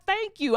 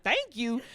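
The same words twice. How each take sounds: First: High, gushing thanks; overjoyed mock-mom voice; grateful mom. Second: Thrown, questioning thanks; puzzled echo. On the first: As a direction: gush it with relief, pitched way up. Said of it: "she was just like". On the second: Retold or imitated. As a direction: echo it back in mild disbelief. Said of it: "I was like".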